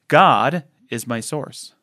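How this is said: The word "God" carries the main stress.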